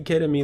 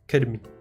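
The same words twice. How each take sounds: First: The word is said oddly, sounding like 'ketamine'. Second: The word is said in its usual way. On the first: The speaker calls it wrong. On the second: The speaker calls it right.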